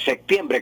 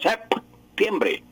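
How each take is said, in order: First: The P sound before the T is dropped. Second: The P sound before the T is pronounced. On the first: "como si fuera con C" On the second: "pronunciando la P sería septiembre"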